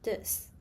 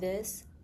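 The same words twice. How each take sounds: First: It begins with a substituted consonant sound. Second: It begins with a standard th sound.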